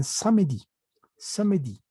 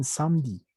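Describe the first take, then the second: First: "samedi" in three syllables, sa-me-di; sounded E. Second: "samedi" in two syllables, sam-di; silent E. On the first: Teacher showing what many French say, E sounded. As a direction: pronounce the middle E of "samedi". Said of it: "la pronuncian". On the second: Teacher showing what others say, E silent. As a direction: swallow the middle E of "samedi". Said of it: "cuando tiene que ser muda". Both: Shown as a demonstration.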